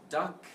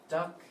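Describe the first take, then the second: The two takes are said the same way.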